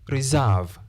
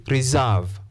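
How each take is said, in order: Both takes have the same delivery.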